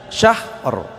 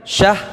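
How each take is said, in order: First: The word ends with a clearly audible r sound. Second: The word ends without an audible r sound. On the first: The speaker calls it right. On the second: The speaker calls it wrong.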